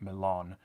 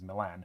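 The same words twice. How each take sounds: First: It is said closer to the local way. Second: It is said in a plain English way. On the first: The speaker calls it right. "which it probably should be" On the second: The speaker calls it wrong. "they don't bother putting any accent on it"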